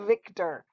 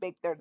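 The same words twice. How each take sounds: First: The word begins with a buzzing v sound. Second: The word begins with a b-like sound. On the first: The speaker calls it right. "that's Victor" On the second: The speaker calls it wrong. "That is not Victor"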